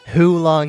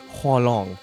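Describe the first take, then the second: First: The first syllable sounds like 'hoo'. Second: The first syllable sounds like 'hwa'. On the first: The speaker calls it wrong. "People say who" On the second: The speaker calls it right. "It's Hua"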